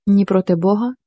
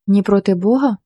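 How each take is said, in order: First: Said in the usual way. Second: A touch of angry disbelief, echoing Бога; understated angry retort; mild angry echo. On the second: A narrator's reading. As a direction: throw Бога back at him, lightly bitter. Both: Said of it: "майже зі злістю сказала Марина".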